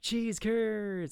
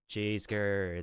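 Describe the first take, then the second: First: It is said with lively enthusiasm. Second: It is said flatly, with little energy.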